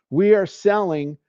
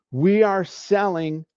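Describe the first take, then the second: No difference in how they are said.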